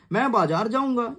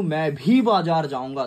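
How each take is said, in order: First: Said in the usual way. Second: भी पर जोर, slow and steady; stress on भी. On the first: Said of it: "ये एक सिंपल सेंटेंस है". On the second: Shown as a demonstration. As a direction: lean on the word भी. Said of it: "उस शब्द को जोर दिया हूं". ("भी" पर ज़ोर देकर धीरे बोलो)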